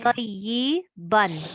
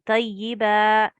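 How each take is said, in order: First: The word ends with an 'an' sound. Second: The word ends with a long 'a' vowel. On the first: The recitation carries on without stopping. "if we didn't want to stop, we would just want to carry on" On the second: The recitation stops on this word. "But if we are stopping"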